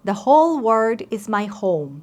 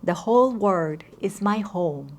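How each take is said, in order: First: It is said in a loud voice. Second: It is said in a normal voice. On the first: "let's start with loud voice" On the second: "in the normal voice, absorbing the meaning"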